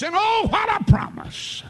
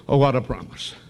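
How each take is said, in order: First: Very high shouted oh, what a promise; preacher's shout. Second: Said in the usual way. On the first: Acted. Preacher exulting over the promise, shouting. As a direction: ring it out in praise.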